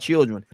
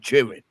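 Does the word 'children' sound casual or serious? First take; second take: casual; serious. First: The word is said in a plain, casual way. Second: The word is said in a stern, serious way. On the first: The speaker calls it wrong. "Not children" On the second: The speaker calls it right. "You know they serious when they say children"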